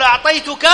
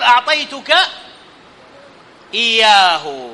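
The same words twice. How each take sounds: First: Said in the usual way. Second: Long pause before "إياه"; detached pronoun. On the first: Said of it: "يجوز أن آتي بالضمير متصل". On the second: Shown as a demonstration. Teacher showing the separate pronoun, "إياه" set apart by a pause. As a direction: say "أعطيتك", stop, then give "إياه" on its own. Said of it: "منفصل".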